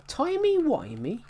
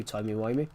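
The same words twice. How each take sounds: First: High, drawn-out incredulous question; John Hurt. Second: Said in the usual way. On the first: Acted. Gamer quoting a favourite Doctor Who line, incredulous. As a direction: stretch it out with pitch shooting up. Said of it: "I love John Hurt's line".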